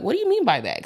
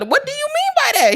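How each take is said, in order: First: Said in the usual way. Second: Much higher, louder mock question. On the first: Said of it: "I'll say, like". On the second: Her pressing boyfriend to clarify, high and insistent.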